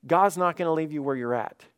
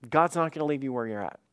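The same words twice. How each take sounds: First: Said in the usual way. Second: Quicker, pressing the point home; faster repeat. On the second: Real, not acted. Pastor pressing the point to his church, faster. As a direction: rush it the second time round.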